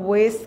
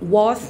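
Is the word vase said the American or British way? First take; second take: American; British. First: The vowel rhymes with 'face', like 'vays'. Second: The vowel is long, like 'vahz'. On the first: "कहते हैं American accent में" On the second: "कहते हैं British accent में"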